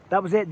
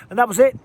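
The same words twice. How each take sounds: First: Said in the usual way. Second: Higher and louder, punching out the finish; thrilled recap of the finish; excited call. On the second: Real, not acted. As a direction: call the knockout like it just happened.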